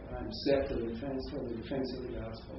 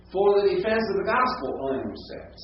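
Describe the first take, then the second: First: Said in the usual way. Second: Emphatic reading of the fronted phrase; stress on the fronted phrase. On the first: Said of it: "prepositional phrase is pulled". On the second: Shown as a demonstration. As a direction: lean on "the gospel" and let the phrase carry the weight. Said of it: "See what's pulled forward?".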